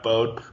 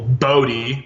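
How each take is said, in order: First: The name ends in an 'oh' sound. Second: The name ends in an 'ee' sound. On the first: The speaker calls it wrong. "not Bode" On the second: The speaker calls it right. "So congratulations to Michael Bodie"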